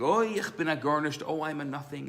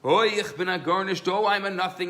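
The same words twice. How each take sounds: First: It is said at a moderate volume. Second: It is screamed at a louder volume.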